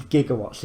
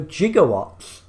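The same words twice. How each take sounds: First: Said in the usual way. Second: "gigawatts" said slowly as "jigawatts". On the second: Shown as a demonstration. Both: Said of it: "he actually means gigawatts".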